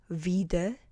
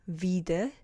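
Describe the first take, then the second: No difference in how they are said.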